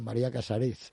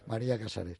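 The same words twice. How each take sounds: First: The name is said with French pronunciation. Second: The name is said with Spanish pronunciation. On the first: This is how French speakers say it. "Los franceses dicen" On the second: This is the name's own pronunciation.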